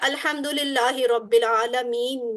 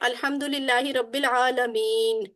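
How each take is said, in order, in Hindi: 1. आख़िरी लफ़्ज़ स्वर पर ख़त्म होता है। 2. आख़िरी लफ़्ज़ व्यंजन पर रुकता है। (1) "लिखा होता है" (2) "हम कहते हैं ... रुक जाते हैं"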